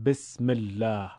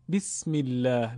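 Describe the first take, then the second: First: "بسم الله" with Persian e, besmellah; Persian-style besm in place of bism; Persian-accent kasra. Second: "بسم الله" with a clear i, bismillah; Arabic-style bism, not besm; Arabic kasra. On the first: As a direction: open the vowel of بسم to e. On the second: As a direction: lean the vowel of بسم to ee. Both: Shown as a demonstration.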